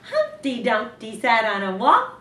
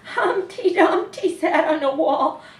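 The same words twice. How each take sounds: First: It is read in a happy tone. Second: It is read in a scared tone.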